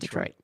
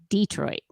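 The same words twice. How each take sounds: First: The stress is on the second syllable. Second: The stress is on the first syllable. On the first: The speaker is an outsider. The speaker calls it wrong. "not Detroit" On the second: The speaker is a local. The speaker calls it right. "if you're from there, you say Detroit"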